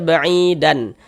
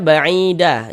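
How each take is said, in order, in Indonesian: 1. Kata ini berakhir dengan vokal pendek dan n. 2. Kata ini berakhir dengan vokal yang dipanjangkan, tanpa n. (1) "jangan dibaca ba'idan" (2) "Ini kita baca ba'ida, kita panjangkan dua harokat"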